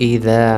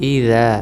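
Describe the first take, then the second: The two takes are said the same way.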